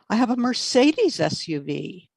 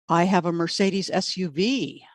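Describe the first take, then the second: First: The word "Mercedes" carries the stress. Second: The word "SUV" carries the stress. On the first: Not a BMW. "not a B M W" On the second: Not a sedan. "not a sedan"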